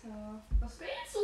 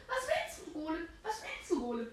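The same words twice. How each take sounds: First: Said in the usual way. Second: Squeaky high taunting voice; high mock taunt. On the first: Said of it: "repeats the line higher". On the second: Taunting the golem in a voice.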